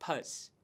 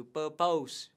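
First: "purse" as the second syllable, soft and short; correct ending. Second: "purpose" said wrongly with -pose; wrong pronunciation. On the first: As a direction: say "purse" quietly as the right ending. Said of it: "mà đọc là". (đọc đúng âm "purse" nhẹ và ngắn) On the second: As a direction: mispronounce "purpose" ending in pose. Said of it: "chúng ta không đọc là pose". (đọc sai "purpose" thành "pơ-pâu") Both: Shown as a demonstration.

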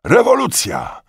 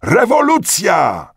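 First: High, loud exclamation; shouted news. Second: High, loud, drawn-out shout; crowd's cry. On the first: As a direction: cry out great news. Returning soldiers cry out news. (głośny, wysoki okrzyk) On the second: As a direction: stretch the word into a mass cheer. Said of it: "rozległy się okrzyki". (przeciągły okrzyk tłumu) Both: A narrator's reading.

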